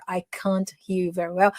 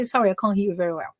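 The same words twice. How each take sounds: First: "can't" with its final T sounded; distinct, careful "can't" before "hear"; over-articulated can't. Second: Said in the usual way. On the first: Shown as a demonstration. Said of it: "Não precisa falar". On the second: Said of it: "But you can say".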